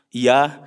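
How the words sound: The word ends in an a vowel. "Kalau Indonesia kan fathah tuh biasa"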